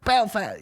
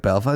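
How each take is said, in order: First: Very high, falling squeal on the word; mock incredulous echo. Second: Said in the usual way. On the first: Host mimicking comedian echoing the crowd, high and incredulous. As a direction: mimic a comic baffled by the town name. Comedian echoes the town in disbelief.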